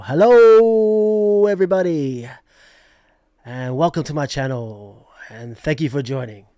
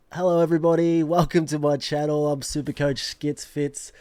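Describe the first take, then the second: First: Abs's intro. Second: Loud, slightly raised greeting to viewers; channel intro attempt. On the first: Retold or imitated. YouTuber borrowing another host's magic, booming showman's intro. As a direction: open with a booming stretched greeting, then ease down. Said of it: "steal Ab's magic and just go". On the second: Shown as a demonstration. YouTuber greeting viewers with a practice intro, loud channel welcome. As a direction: belt out a channel welcome, evenly. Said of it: "That never gets easier. We'll work on that".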